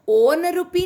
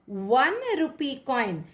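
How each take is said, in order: First: ओन rupee with a plain o vowel, no w sound; wrong pronunciation. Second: वन said with a clear w glide before the vowel; correct pronunciation. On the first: Teacher showing students the wrong way, said plainly. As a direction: mispronounce ओन as a bare on. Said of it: "ये sound हम नहीं बोल रहे हैं". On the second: Teacher modelling the right sound for students, clearly. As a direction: start वन with a w, like won. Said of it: "हम क्या बोल रहे हैं यहाँ पर". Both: Shown as a demonstration.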